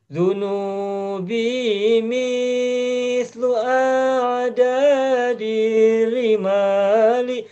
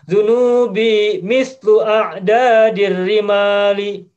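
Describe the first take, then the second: First: The vowel in mislu is drawn out long. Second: The vowel in mislu is kept short. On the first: This is how it is read as poetry. "Misnya panjang kalau baca syair" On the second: It does not have to be lengthened. "Padahal kan tidak harus panjang. Cukup"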